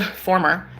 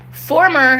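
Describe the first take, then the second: First: Said in the usual way. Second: "former" hit higher and louder; heavy emphasis. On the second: Shown as a demonstration. Correcting herself about her ex, leaning hard on "former". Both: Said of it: "heavy emphasis".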